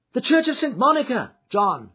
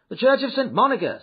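First: High, loud call to the driver; urgent cry. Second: Raised, loud instruction to a driver; called-out order. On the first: Lady to her coachman John, crying out. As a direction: cry out the order in a raised pitch. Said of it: "she cried". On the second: Passenger jumping into a cab, calling out. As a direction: call it out briskly, pitched high. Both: A narrator's reading.

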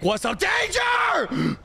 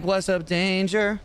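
First: Drawn-out shriek on DANGER; battle cry to hype yourself up; shouted catchphrase. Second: Said in the usual way. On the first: Acted. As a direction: yell it, leaping very high on the last word. Same line repeated, now shouted.

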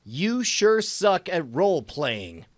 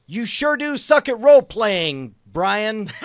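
First: Slow retake. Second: Loud, high, hammed-up jeer; mocking taunt. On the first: Shown as a demonstration. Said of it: "retake after mumbling". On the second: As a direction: jeer at Brian with a big grin. Hammed-up mocking quote dictated.

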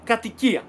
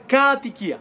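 First: Said in the usual way. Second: Κατοικία mis-stressed too early, as ΚΑΑ-τοικία; wrongly stressed word. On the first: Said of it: "δεν λέμε κατοικία". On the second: Shown as a demonstration. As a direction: stretch and hit κα at the start of κατοικία. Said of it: "δεν λέμε".

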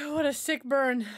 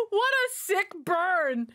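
First: Said in the usual way. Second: Slow, high "What a sick burn"; drawn-out delight. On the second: Real, not acted. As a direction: savour every word of "What a sick burn".

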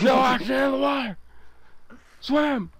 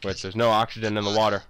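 First: High, fast panicked shout; yelling while running away. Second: Said in the usual way. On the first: Acted. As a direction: scream it in mock panic. Panic underwater.

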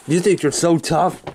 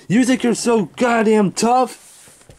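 First: Restrained challenge at usual pitch; confrontational. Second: Higher, slow, drawn-out angry challenge; escalated challenge. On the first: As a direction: square up to him, holding back. Staged quarrel, challenges Hellbent. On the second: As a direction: square up to him, stretching out each word. Staged quarrel, challenge repeated and escalated. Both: Acted.

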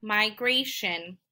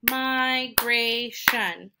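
First: Said in the usual way. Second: "migration" in three slow, stretched beats; syllable by syllable. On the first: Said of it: "finding out how many syllables". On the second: Shown as a demonstration. Teacher counting three syllables, "migration" slowly split up. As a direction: split "migration" as my, gray, shun. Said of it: "Also has three syllables".

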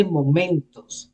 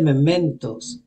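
First: Momentos said with an O sound, mo-MEN-tos; momentos, first vowel an open O, not mementos; wrong word. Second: Mementos said with an E sound, me-MEN-tos; mementos, first vowel a clear E, not momentos; correct word. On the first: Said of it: "He said mementos". (momentos con o, como la palabra común) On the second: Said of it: "He didn't say momentos". (mementos con e, como lo dijo el rapero) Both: Shown as a demonstration.

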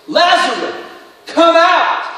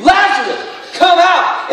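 First: Calling Lazarus out, higher and louder; a commanding call into the tomb. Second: Higher and louder, shouted command; loud call. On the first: Jesus calls dead Lazarus out of the tomb, loud and high. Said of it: "called out in a loud voice". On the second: Jesus shouting into the tomb for Lazarus, louder and higher. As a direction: call him out of the grave. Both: A narrator's reading.

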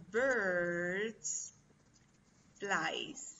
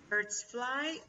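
First: "birds" drawn out, then "flies" dropping; very slow quiz option, falling on "flies"; second option, falling. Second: "fly" stretched slowly with a rising tune; slow quiz option, "fly" left hanging upward; first option, rising. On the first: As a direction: slowly set out "flies" as the closing choice. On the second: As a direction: offer "fly" as a slow, lifted choice. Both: Shown as a demonstration. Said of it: "What do you think?".

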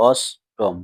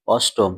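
First: অষ্টম in two parts, a pause between; split into syllables. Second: Said in the usual way. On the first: Shown as a demonstration. Teacher counting syllables for pupils, অষ্টম split in two. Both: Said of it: "এই অষ্টম শব্দে কটি দল রয়েছে".

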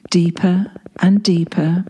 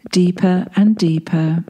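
No difference in how they are said.

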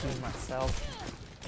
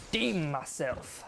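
First: Very slow "Redeem myself", rising at the end; slower, subdued echo of "Redeem myself"; slow repeat. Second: "redeem" stretched out and falling; slow, drawn-out "redeem"; emphatic vow. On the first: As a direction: draw out "Redeem myself" as an afterthought. Repeats the vow to himself. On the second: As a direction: lean hard and long on "redeem". Vows to do better in game. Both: Real, not acted.

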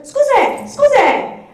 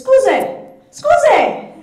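First: High, loud Scusi! Scusi! called over the counter; calling out Scusi. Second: High, loud Scusi! Scusi! called to the shopkeepers; calling out Scusi. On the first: Retold or imitated. To shopkeepers ignoring tourists, a loud high call. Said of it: "And I went". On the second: Shown as a demonstration. In a Roman shop, calling loudly for attention. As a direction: call Scusi! across the shop to get noticed. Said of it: "your most important phrase is".

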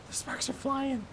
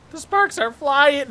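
First: Soft, small-voiced worry; quiet nervous aside; hushed alarm. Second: Louder alarm. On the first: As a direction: say it under your breath, alarmed. Scared aside to himself. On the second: Repeats it louder in panic. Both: Real, not acted.

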